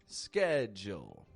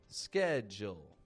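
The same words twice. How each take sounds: First: It begins with an sk sound, American style. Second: It begins with an sk sound, American style.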